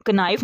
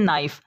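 First: "कनाइफ" with k sounded before n; wrong pronunciation. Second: "नाइफ" starting straight on n; silent k. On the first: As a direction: pronounce the k in "कनाइफ". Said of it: "नहीं पढ़ते". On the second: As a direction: drop the k from "नाइफ". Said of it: "इसको पढ़ते हैं". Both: Shown as a demonstration.

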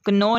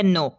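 First: "कनो" with k sounded before n; wrong pronunciation. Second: "नो" starting straight on n; silent k. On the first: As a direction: pronounce the k in "कनो". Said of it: "नहीं है". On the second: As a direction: drop the k from "नो". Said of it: "ये है". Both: Shown as a demonstration.

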